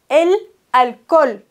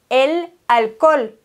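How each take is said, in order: The two takes are said the same way.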